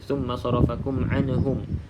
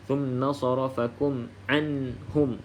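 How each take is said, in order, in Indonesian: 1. Bunyi n sukun terdengar memantul. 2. Bunyi n sukun ditahan tanpa pantulan. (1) "Anhum pun ada lantunan" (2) "jangan dilantunkan"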